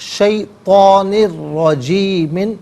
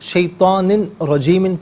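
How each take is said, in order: First: The final n merges into the following r. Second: The final n is kept before rajeemin. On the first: The speaker calls it right. "यहाँ पर यरमलून का जो कायदा है वो अप्लाई होगा" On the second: The speaker calls it wrong. "पढ़ना गलत है"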